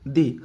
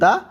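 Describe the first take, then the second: First: The vowel is a long 'ee' sound. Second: The vowel is a short 'uh' sound. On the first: The next word begins with a vowel sound. "Vowel হলে দি" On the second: The next word begins with a consonant sound. "Consonant হলে দা"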